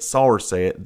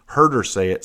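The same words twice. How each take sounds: First: "saw" punched louder than the rest; stress on saw. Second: "heard" hit firmly and louder; stress on heard. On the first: Witness adds proof against the lady, strong stress on "saw". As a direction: hit "saw" hard as added proof. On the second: Witness insists on what the lady said, firm stress on "heard". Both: Real, not acted.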